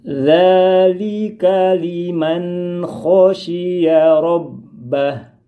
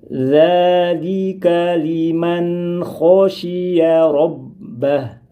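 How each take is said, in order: Both takes have the same delivery.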